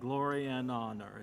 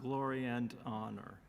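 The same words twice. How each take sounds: First: The word and ends without any d sound. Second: The word and ends with a d sound. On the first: The speaker calls it right. "make sure you don't put a D" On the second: The speaker calls it wrong. "It's not"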